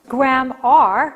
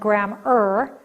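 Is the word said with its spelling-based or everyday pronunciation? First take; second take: spelling-based; everyday. First: It is said oddly, sounding out its spelling. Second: It is said the ordinary, everyday way. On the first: The speaker calls it wrong. "I'm mispronouncing it purposely so you hear it" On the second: The speaker calls it right. "rather than grammar"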